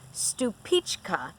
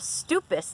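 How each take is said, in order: First: The name ends in a 'pichka' sound. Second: The name ends in a short 'pus' sound. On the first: The speaker calls it right. "It is actually pronounced Stupichka" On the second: The speaker calls it wrong. "what I would do would call a Stupus tomato, but I read that that's not really how it's pronounced"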